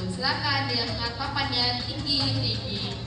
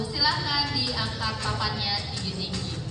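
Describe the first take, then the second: The two takes are said the same way.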